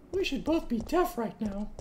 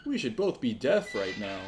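First: High put-on voice; mimicking voice. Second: Said in the usual way. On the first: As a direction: parrot the character, pitched way up. Mimicking the character's line.

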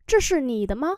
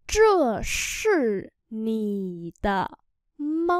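First: Said in the usual way. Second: Very slow drawn-out teaching pronunciation; slow syllable-by-syllable model. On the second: Shown as a demonstration. Teacher models Chinese phrase for learners, very slowly. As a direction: stretch each syllable, pause between them.

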